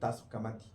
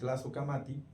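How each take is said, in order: First: The first syllable starts with a plain T sound. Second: The first syllable starts with a T followed by L.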